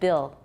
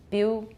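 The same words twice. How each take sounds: First: The final L is pronounced as a full L. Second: The final L sounds like an ooh vowel. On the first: "instead of Bill" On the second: "Bill, Bill"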